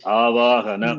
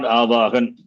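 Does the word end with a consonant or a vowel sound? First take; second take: vowel; consonant. First: The word ends with a final short a vowel. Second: The word ends on a consonant, final vowel dropped. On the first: This is the proper Sanskrit way of saying it. The speaker calls it right. "It is Avahana" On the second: This is the Hindi way of saying it. The speaker calls it wrong. "it is not Avahan"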